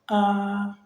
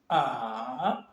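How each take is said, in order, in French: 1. Le ton reste haut et stable. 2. Le ton descend puis remonte. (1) "un ton aigu, constant et continu" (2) "Il descend et il remonte"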